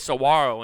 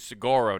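First: The middle consonant is a W sound. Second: The middle consonant is a hard G sound.

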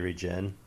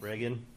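First: It sounds like the start of regenerate. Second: It sounds like the name Regan. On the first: This is the pronunciation based on the word regenerate. "with new eyes, probably would say regen" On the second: This is the pronunciation from first reading it as a child. "when you first read it, like, that's what I called it"

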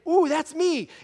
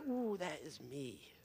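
First: The speaker sounds excited and pleased. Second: The speaker sounds dismayed and uneasy.

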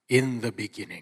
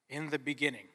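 First: It is said in a deep, grand, dramatic voice. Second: It is said in a plain, ordinary voice. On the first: The speaker calls it right. "we have to say it with a little more like gusto" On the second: The speaker calls it wrong. "than that"

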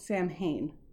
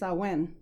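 First: The word gets its common, everyday pronunciation. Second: The word gets its traditional Gaelic pronunciation. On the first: The speaker calls it wrong. "It's actually commonly called Samhain, but that's not the actual pronunciation for it" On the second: The speaker calls it right. "So the actual pronunciation is Samhain"

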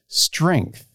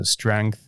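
First: The vowel sounds like the vowel in ink. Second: The vowel sounds like the vowel in wrench. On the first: The speaker calls it wrong. "The way most people say that word, it sounds like this" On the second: The speaker calls it right. "I say it the way I would say wrench"

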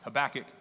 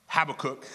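First: The name is said the less familiar way. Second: The name is said the commonly heard way. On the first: The speaker calls it right. "is actually pronounced Habakkuk" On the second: The speaker calls it wrong. "Often pronounced Habakkuk, as I pronounced it when I first ever saw it"

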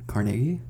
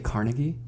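First: It is said the way local residents say it. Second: It is said the way outsiders say it. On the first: The speaker is from the area. "the area of Pittsburgh I'm from is called Carnegie" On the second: The speaker is not from the area. "people who aren't from Carnegie say Carnegie"

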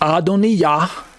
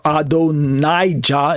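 First: The name is said with its Hebrew pronunciation. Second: The name is said with its English pronunciation. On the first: "pronounced Adoniyah" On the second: "Adonijah is probably how you say it in English"

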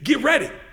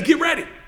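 The two takes are said the same way.

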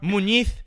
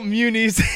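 First: The name is said with a Spanish accent. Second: The name is said with an English accent.

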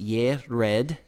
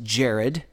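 First: The name begins with a Y sound. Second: The name begins with a J sound. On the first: The speaker calls it right. "And it is pronounced Yered" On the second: The speaker calls it wrong. "this looks like it should be pronounced Jared"

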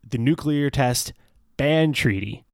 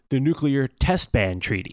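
First: The words 'test' and 'ban' are split apart. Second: The words 'test ban' are grouped as one unit. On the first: The speaker calls it right. "That's how we should be saying this" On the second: The speaker calls it wrong. "people combine test ban as if that's like a meaningful phrase"

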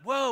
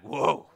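First: It sounds casual and impressed, like slang. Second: It sounds grave and full of dread. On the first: Something is cool or surprising. The speaker calls it wrong. "not whoa, bro" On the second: Something terrible is about to happen. The speaker calls it right. "Like something's bad, something really, really horrible is about to happen"

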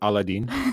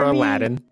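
First: The name is said in a non-American pronunciation. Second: The name is said in the American English pronunciation. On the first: "you even pronounced it correctly" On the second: "as the American English pronounces it"

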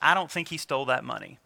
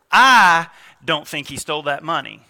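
First: No single word in it is stressed. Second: The word 'I' is stressed. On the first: The speaker simply doesn't think this person stole the money. "You hear that, it's kind of flat" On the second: The speaker doesn't think so, but someone else may think he did. "Put an inflection on the first word"

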